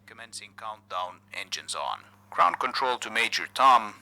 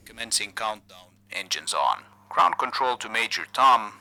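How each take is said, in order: Both takes have the same delivery.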